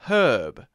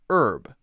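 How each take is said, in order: First: The word starts with an audible H sound. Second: The word starts without an H sound. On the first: "with an H sound actually there" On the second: "We often take out the H sound"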